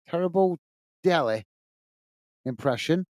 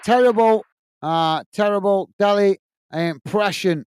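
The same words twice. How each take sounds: First: A droll, sulky echo of the insult; mock deadpan. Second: Said in the usual way. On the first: Shown as a demonstration. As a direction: drop the voice and drag out "Terrible Delhi impression" word by word. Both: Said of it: "I didn't know I did an impression".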